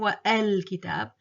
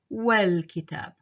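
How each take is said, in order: First: The vowel after wa starts with a separate catch. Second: Wa runs straight into the l without any catch. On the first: The speaker calls it wrong. "I'm not saying wa al kitab" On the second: The speaker calls it right. "I'm saying wal kitab. So I'm actually totally dropping it"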